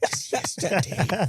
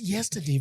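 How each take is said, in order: First: It is said at normal conversational volume. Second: It is said quietly in a low voice.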